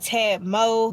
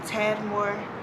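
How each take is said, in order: First: The final R sound is dropped. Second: The final R sound is pronounced.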